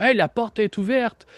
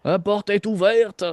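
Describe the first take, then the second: First: Higher-pitched acted call; arriving henchman. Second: Put-on slow, higher-pitched German-accented call. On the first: Game master voicing people arriving, acted high-pitched call. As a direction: call out in an approaching guard's voice. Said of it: "des voix. Il y a des gens qui arrivent". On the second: Game master voicing an approaching stranger, German accent. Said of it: "t'entends une voix comme allemande".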